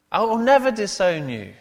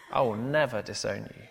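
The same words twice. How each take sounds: First: Loud, high, emphatic vow; Peter. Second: Restrained insistence in a near-usual voice; measured vow with light weight on "never"; Peter. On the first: Peter coming back at Jesus, loudly emphatic. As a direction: swear it at full volume, driving through "never". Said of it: "Mark says, emphatically". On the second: Peter promising Jesus he won't disown him, mildly emphatic. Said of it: "Peter insisted emphatically". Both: Acted.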